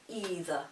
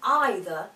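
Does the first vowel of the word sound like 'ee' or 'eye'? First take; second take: ee; eye. First: The first vowel sounds like 'ee'. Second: The first vowel sounds like 'eye'. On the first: The speaker calls it wrong. "than either" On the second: The speaker calls it right. "either sounds much nicer"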